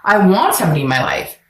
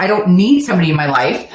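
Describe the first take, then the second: First: "want" picked out and stressed against need. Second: "need" leaned on to set it against want; stress on need. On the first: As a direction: lean hard on the word "want". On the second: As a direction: punch the word "need". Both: Shown as a demonstration. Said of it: "difference between need and want".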